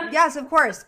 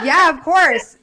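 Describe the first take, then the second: First: Said in the usual way. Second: Laughing yes. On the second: Real, not acted. Laughing reply to host's request.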